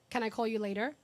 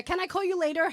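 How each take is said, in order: First: Said in the usual way. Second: "Can I call you later?" mocked, higher and louder; mocking brother's text. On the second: Sister teasing brother at his birthday, mocking his stock reply. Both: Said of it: "he'll text me back that message".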